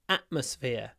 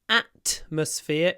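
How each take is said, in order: First: The T is replaced by a glottal stop. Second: The T is pronounced as a full T. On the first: The speaker calls it right. "so I use glottal stop instead of T" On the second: The speaker calls it wrong. "is not a mistake"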